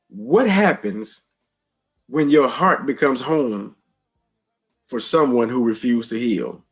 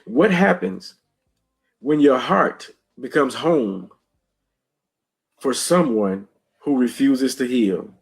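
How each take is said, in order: First: It is read at a normal pace. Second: It is read slowly and deliberately.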